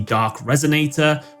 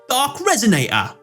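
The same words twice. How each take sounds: First: The name is said in a plain, ordinary way. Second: The name is said in an imitated, odd pronunciation.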